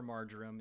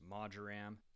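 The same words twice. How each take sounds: First: It is said in the American way. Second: It is said in a non-American way.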